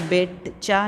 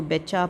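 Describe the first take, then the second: First: "बेचा" split, with an audible T before चा; T wrongly pronounced. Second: "बेचा" joined smoothly, no T before चा; silent T. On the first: Teacher warning pupils about the silent letter, "बेचा" with T sounded. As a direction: sound the T in "बेचा", as bet-cha. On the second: Teacher showing pupils the correct reading, "बेचा" with silent T. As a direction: leave out the T in "बेचा", be-cha. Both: Shown as a demonstration. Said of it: "इसमें टी silent है".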